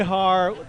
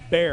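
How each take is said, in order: First: The middle x is said as an h sound. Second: The middle x is silent, like bear. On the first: This is how it is said in Spanish. "that's the correct Spanish pronunciation" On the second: This is how locals in Texas say it. "in Texas, they pronounce it like the animal grizzly bear"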